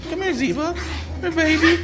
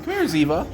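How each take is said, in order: First: Much higher, sing-song call to the puppy. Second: Said in the usual way. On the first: Real, not acted. Calling puppy, repeats in baby voice.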